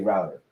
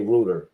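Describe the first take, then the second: First: It is said unlike the English pronunciation. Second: It is said the way English people say it. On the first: "They don't say router" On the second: "Like people from England, they say router"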